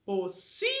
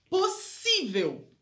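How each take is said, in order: First: "Possível" broken up, SI held long and rising; "Possível" with pauses, stretching the middle syllable SI; split, stressed SI. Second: "possível" slow, pitched up, SI stressed; "possível" whole and emphatic, stress on the middle syllable. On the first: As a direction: say "Possível" as po, long SI, then vel. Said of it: "a sílaba tônica é o si". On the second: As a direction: say "possível" as one drawn-out word, leaning on SI. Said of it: "a sílaba tônica tá no si". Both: Shown as a demonstration.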